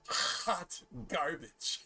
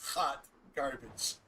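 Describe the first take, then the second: First: It is said with lively, exaggerated inflection. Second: It is said flatly, without much inflection.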